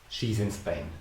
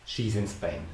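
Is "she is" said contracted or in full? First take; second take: contracted; contracted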